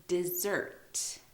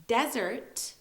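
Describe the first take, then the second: First: DESSERT slowly as "di-ZERT"; careful DESSERT, short "di", strong ZERT; stress on ZERT. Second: DESERT slowly as "DEZ-ert"; careful DESERT with a Z sound, front-stressed. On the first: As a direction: hit the second syllable. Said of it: "so the zert part". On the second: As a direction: hit the first syllable of DESERT. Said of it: "emphasis on the de part". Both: Shown as a demonstration.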